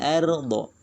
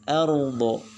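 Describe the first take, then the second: First: The r is pronounced light, with a thin quality. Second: The r is pronounced heavy, with a hollow quality. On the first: The speaker calls it wrong. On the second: The speaker calls it right.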